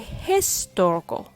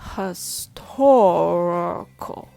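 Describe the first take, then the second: First: The stress is not on the second syllable. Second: The stress is on the second syllable. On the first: The speaker calls it wrong. "it sounds off" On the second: The speaker calls it right. "when the stress falls on the second syllable, tor, all the other syllables become weak"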